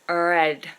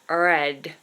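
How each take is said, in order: Both takes have the same delivery.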